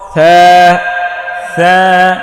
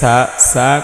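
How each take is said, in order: First: It begins with a soft 'th' sound. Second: It begins with a hissing 's' sound. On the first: The speaker calls it right. "নরম হবে জিহ্বার আগা সামনের উপরের দুই দাঁতের আগায় লাগিয়ে" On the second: The speaker calls it wrong. "কোনো ক্রমেই হবে না"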